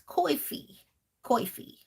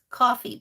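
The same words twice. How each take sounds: First: Coffee mimicked as "coy-fee"; imitated pronunciation. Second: Said in the usual way. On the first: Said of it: "cracks me up when she says".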